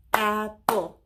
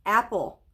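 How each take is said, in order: First: "Apple" split in two beats, a pause between; syllable by syllable. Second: Said in the usual way. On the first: Shown as a demonstration. Teacher counting syllables with pupils, "Apple" in two separated beats. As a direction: break "Apple" into two separate, even claps. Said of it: "say the word apple and count the syllables". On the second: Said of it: "we're gonna say the word apple".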